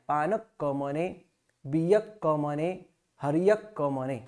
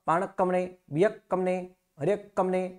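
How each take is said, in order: First: The phrase is said slowly with small pauses. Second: The phrase is said quickly without pauses. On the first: The speaker calls it right. "Simple और धीरे से बोलना है" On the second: The speaker calls it wrong. "बहुत fast में बोलते हो"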